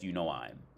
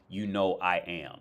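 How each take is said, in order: First: The final 'I am' is contracted to 'I'm'. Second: The final 'I am' is said as two full words. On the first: The speaker calls it wrong. "we would never say" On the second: The speaker calls it right. "We would say"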